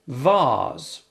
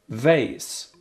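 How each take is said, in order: First: It is said with a British accent. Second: It is said with an American accent.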